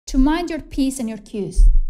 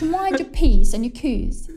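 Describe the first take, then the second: First: It is said in the speaker's normal accent. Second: It is said in an exaggerated British accent.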